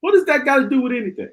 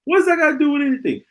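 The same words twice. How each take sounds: First: Exasperated. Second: Higher and faster, more exasperated. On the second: Vlogger ranting at foolish posts, more exasperated. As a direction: push the repeat further up. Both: Real, not acted. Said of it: "I shouldn't see that foolishness".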